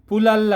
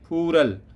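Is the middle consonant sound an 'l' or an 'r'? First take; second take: l; r. First: The middle consonant is a clear l sound. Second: The middle consonant is a light r sound. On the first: The speaker calls it wrong. "आम पढ़ने में तो ये फुलल लगता है ना, तो ऐसे नहीं" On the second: The speaker calls it right. "ये फूरल पढ़ा जाएगा"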